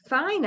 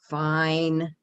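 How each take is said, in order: First: It is said in an agreeing, affirming tone. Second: It is said in a grudging, reluctant tone. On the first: The speaker agrees. "I agree, yes" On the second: The speaker accepts but dislikes it. "Okay, but I don't like it"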